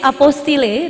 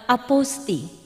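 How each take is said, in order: First: The word ends with an audible L sound. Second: The word ends in an ee vowel, no L. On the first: The speaker calls it wrong. "Nama boleh tertulis apostille" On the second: The speaker calls it right. "dalam bahasa Prancis pengucapan yang tepat adalah Aposti"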